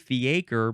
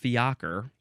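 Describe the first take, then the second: First: It sounds like 'fee' followed by 'acre'. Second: It does not sound like 'fee' plus 'acre'. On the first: The speaker calls it wrong. "It looks like the word acre with a fee" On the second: The speaker calls it right. "it tells me it's fiacre"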